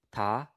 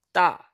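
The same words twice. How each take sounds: First: Said in the usual way. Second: "ta" with a tense t, higher and louder; strong accent. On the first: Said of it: "here's the difference". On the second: Shown as a demonstration. Teacher showing the difference, "ta" with strong accent. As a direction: hit the t of "ta" hard. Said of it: "add strong accent to it".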